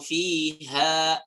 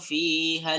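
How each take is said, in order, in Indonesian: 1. Vokal akhir dibaca panjang saat berhenti. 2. Vokal akhir dibaca pendek, menyambung ke kata berikutnya.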